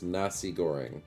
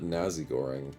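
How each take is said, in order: First: The middle consonant is a hissing s sound. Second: The middle consonant is a buzzing z sound. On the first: The speaker calls it right. "it's with an S" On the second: The speaker calls it wrong. "so it's not with a Z"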